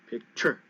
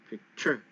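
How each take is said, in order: The two takes are said the same way.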